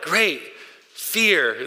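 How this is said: It is said in a pleased, approving tone. The fear is positive and beneficial. "Or like, great. Fear. Like, okay"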